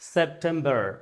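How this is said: It is said in an American accent. "আমেরিকানরা বলছে"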